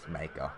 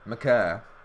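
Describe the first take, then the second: First: The name sounds like 'Maker'. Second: The name sounds like 'McCurr'. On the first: This is how Americans usually say the name. "everyone in America says Maker" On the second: This is how the player's name is really said. "That's the correct pronunciation"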